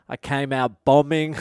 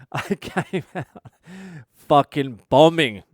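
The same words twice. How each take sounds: First: Said in the usual way. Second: Fucking bombing hit loud and slowed down after a small laugh; emphatic repeat. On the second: Shown as a demonstration. Comic restating his bad gig opener, punched stress.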